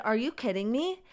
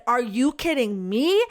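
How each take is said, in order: First: Said in the usual way. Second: Louder, mildly mocking the angry lady; mildly angry retort. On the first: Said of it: "I said". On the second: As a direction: snap it back at her. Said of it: "getting all mad at me".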